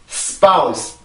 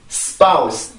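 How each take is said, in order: No difference in how they are said.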